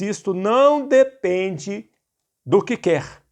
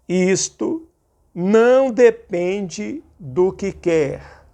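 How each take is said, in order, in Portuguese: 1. Lê-se em ritmo normal. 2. Lê-se muito devagar.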